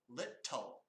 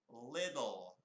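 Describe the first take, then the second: First: The middle consonant is a crisp T sound. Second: The middle consonant is a soft D sound. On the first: This is how British speakers say it. The speaker calls it wrong. "That's British English" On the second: This is how Americans say it. The speaker calls it right. "in the U S, we make a D sound"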